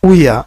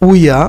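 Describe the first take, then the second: The two takes are said the same way.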